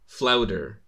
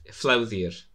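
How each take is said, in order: First: The middle consonant is a hard 'd' sound. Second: The middle consonant is a soft 'dh' sound. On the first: This is how the film adaptation says the name. "how did they say it in the Disney?" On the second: This is the original way of saying the name. "double D makes a DH sound"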